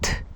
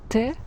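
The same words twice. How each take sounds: First: The t is only voiceless air, no vowel. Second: A voiced vowel follows the t sound. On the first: It is just the sound. "without any voice" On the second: It names the letter. "you hear that I use my voice"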